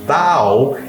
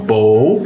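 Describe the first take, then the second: First: The vowel is said open. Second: The vowel is said closed. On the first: It means bending forward as a greeting. "é uma reverência" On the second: It means a bow for shooting arrows. "fechado, arco"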